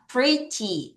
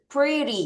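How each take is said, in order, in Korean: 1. 가운데 자음은 또렷한 t 소리예요. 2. 가운데 자음은 r 비슷한 부드러운 flap이에요.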